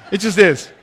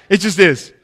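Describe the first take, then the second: No difference in how they are said.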